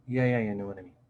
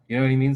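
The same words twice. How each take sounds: First: "you know what I mean" kept low; murmured low, letting "mean" sink; lower inflection. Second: Said in the usual way. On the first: Shown as a demonstration. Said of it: "when we speak with a lower inflection, we're like". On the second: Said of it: "when we're speaking high inflection and then low inflection".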